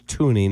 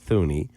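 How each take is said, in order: First: The name begins with a plain t sound. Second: The name begins with a th sound. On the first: The speaker calls it right. "it's Tooney" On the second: The speaker calls it wrong. "not Thuney"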